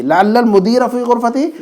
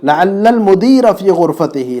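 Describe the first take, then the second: First: Said in the usual way. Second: Each word drawn out slowly for the student; slow model reading. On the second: Shown as a demonstration. Teacher modelling the sentence for a student, slow and deliberate. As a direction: read it slowly so the student can copy.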